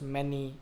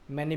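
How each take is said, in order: First: The word is drawn out and lengthened. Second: The word is said short and crisp.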